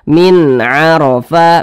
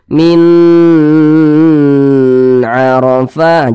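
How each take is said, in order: First: The sound after min is kept short. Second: The sound after min is drawn out long. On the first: The speaker calls it right. "pendek saja" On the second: The speaker calls it wrong. "Jangan jangan jangan dipanjangkan seperti itu"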